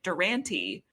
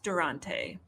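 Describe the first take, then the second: First: The name is said in an Americanized way. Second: The name is said in an Italian-like way. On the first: The speaker calls it wrong. "just like a very like America version of like how you would pronounce an Italian last name" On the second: The speaker calls it right. "gonna get a little closer to what it should be"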